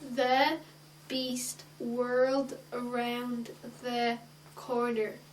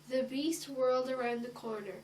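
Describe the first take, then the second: First: It is read haltingly, one word at a time. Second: It is read smoothly in one flowing phrase.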